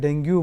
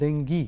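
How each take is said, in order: First: The word ends in a 'yoo' sound. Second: The word ends in an 'ee' sound. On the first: The speaker calls it wrong. "पयलीं आमी ताका डेंगू नाजाल्यार डेंग्यू म्हणटाले" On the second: The speaker calls it right. "Correct pronunciation is डेंगी double E"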